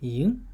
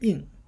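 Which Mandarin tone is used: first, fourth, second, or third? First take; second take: second; fourth. First: The pitch rises from mid to high. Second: The pitch falls sharply from high to low. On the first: "second tone would be yin" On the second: "fourth would be in"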